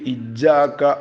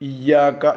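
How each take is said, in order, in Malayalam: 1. ഇരട്ടിച്ച y അധികമായി, കടുപ്പമായി മുഴങ്ങുന്നു. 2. y ശബ്ദം പിടിച്ചുനിർത്തി ഇരട്ടിപ്പിക്കുന്നു. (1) "വല്ലാതെ ശബ്ദ് കൂട്ടിയിട്ട് ഇജാക്ക എന്ന് ഓതാനും പാടില്ല" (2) "ശബ്ദ് വേണം"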